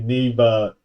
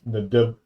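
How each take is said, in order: First: The V sound comes right after the first vowel. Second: The D sound comes right after the first vowel. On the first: The speaker calls it wrong. "I always want to put the V first. I want to say Neva" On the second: The speaker calls it right. "No, it's Nadiv"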